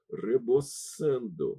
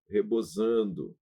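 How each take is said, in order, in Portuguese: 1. O s entre vogais soa à espanhola. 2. O s entre vogais soa à portuguesa.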